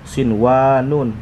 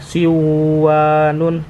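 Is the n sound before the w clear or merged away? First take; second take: clear; merged. First: The n sound is pronounced clearly before w. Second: The n sound is dropped and merged into w. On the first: The speaker calls it right. "tetap dibaca dia jelas ya" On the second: The speaker calls it wrong. "ini tidak boleh dibaca siwanun"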